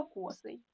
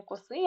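First: Косий stressed on КО; stress on first syllable. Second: Косий stressed on СИЙ; wrong stress on last syllable. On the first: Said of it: "а косий". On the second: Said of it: "не косий". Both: Shown as a demonstration.

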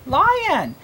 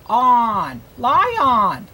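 First: Said in the usual way. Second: "Lion" in chunks, lie-on; "Lion" said as spelled, with a full ON; sounding out. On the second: Shown as a demonstration. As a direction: stress the ON chunk of "Lion" fully. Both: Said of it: "it has the chunk on".

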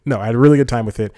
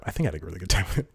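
First: Louder, quick, emphatic "really good time"; firm correction. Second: Quick, softer second thought; hedging aside. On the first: Vlogger overruling his own doubt about the show, emphatic "really good time". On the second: Vlogger second-guessing his review, quick soft hedge. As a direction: say it fast and low-key, half to yourself. Doubting own verdict before correcting it. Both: Real, not acted.

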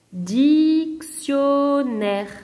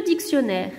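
First: "Dictionnaire" very slow: dic, tion, naire; split into syllables. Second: Said in the usual way. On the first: Shown as a demonstration. Teacher counting syllables for pupils, "Dictionnaire" split in three. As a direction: stretch each of the three beats of "Dictionnaire". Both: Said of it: "trois syllabes".

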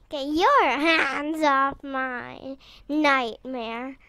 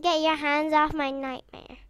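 First: Slow, stretched-out possessive warning; slow emphatic warning. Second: Said in the usual way. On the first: Acted. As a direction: draw out YOUR and HANDS slowly.

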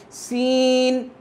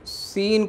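First: سین held long on a higher note; drawn-out madd. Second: Said in the usual way. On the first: Shown as a demonstration. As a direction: stretch the "ee" in سین. (مد کے ساتھ لمبا سین) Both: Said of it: "تھوڑا سا مد کے ساتھ پڑھتے ہیں".

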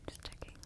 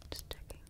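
Both takes have the same delivery.

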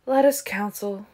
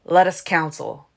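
First: Indifferent echo of a proposal; uninterested. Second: Forceful, eager proposal, louder. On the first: Marcus echoes Caius in an uninterested tone. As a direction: repeat it as if you could not care less. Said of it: "Marcus repeated in an uninterested tone". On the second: Caius presses the ancients to confer, eagerly. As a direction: urge it with keen force. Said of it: "Caius said eagerly". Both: A narrator's reading.

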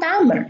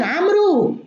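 First: عمرو said as Amr, the waw silent; correct pronunciation. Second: عمرو said wrongly as Amru, waw sounded; wrong pronunciation. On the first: Shown as a demonstration. Teacher giving students the right reading of the name, stressed. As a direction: say عمرو as one syllable, Amr, no u. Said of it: "الواو في عمرو صامتة". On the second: Retold or imitated. Teacher imitating the common mistake for students, mock reading. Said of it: "الناس الآن يقولون عمرو".

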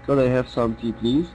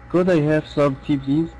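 First: Slow, evenly paced polite order, rising on please; a teacher repeating a tea order for students, calm and slow. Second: Slow polite café order, gently rising at the end; a teacher modelling a polite tea order, calm and slow. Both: Shown as a demonstration. Calm polite request. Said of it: "وبتكلم بهدوء كده".

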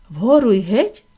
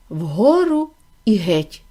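First: "Вгору і геть" as a question, rising at the end; questioning repeat. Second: Said in the usual way. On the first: A narrator's reading. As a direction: lift the end of "геть" in puzzlement. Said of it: "повторив подумки Чарлі". (запитально, з підйомом на «геть») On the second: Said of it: "Там було написано".

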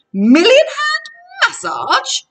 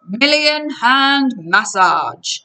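First: Loud, high, thrilled outburst; excited cry. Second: Slow, drawn-out salesman voice; salesman's pitch. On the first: Grover diving onto the massage bed, excited cry. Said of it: "Grover cried and dived in". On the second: Krusty shows off his waterbed, slow salesman's pitch. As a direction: announce the feature slowly, pitched up. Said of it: "Krusty told us". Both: A narrator's reading.

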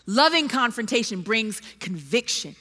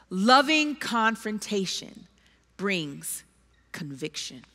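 First: "Loving confrontation brings conviction" restated fuller, stress on "loving"; firm restatement. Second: Soft, slow emphasis. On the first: Preacher repeating his point to the congregation, firm stress on loving. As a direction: say it back clearly, leaning on "loving". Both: Shown as a demonstration.

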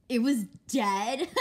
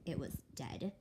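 First: Loud, slow, laughing question; laughing disbelief. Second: Said in the usual way. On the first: Acted. Sister mocks her about the dead snake, laughing. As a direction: scoff through a laugh.

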